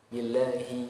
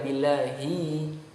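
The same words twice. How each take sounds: First: The final vowel is cut short. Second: The final vowel is held long. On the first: The speaker calls it wrong. "jangan pendek hanya billahi" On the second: The speaker calls it right. "hi-nya dibaca panjang"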